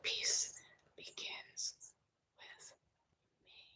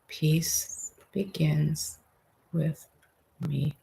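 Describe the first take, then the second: First: It is whispered without any voice. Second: It is said softly in a low voice.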